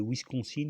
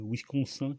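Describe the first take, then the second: First: Said in the usual way. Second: « Wisconsin » à la canadienne, finale nasale « -sin » comme « sein »; prononciation canadienne. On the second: Shown as a demonstration. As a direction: dire « Wisconsin » avec une finale nasalisée, à la québécoise. (« Wisconsin » prononcé comme un Canadien francophone, finale en « -sin » nasale) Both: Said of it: "comme disent les Canadiens".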